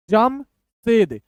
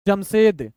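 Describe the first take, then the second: First: Slow, halves clearly separated; broken in two. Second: Said in the usual way. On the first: Shown as a demonstration. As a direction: split it after the first syllable. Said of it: "दो दो अक्षर तोड़ तोड़ के". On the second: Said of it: "थोड़ा सा speed बढ़ाते हैं".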